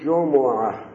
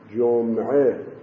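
First: The m is followed by a u vowel. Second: The m has no vowel after it. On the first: It means the last day of the week. "میم مضمومه" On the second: It means the week. "با میم ساکن یعنی هفته"

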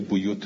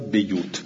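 First: The first vowel is a rounded u sound. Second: The first vowel is a front i sound. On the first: This is how the other readers recite it. "بقیه قرآن هم به زم" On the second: This is how one particular reader recites it. "قالون یکسر منها البیوت"

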